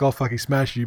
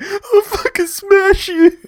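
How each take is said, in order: First: The line is said with milder, restrained energy. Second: The line is said with intense, explosive energy. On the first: The speaker calls it wrong. "you're saying like" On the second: The speaker calls it right. "but where it was more like"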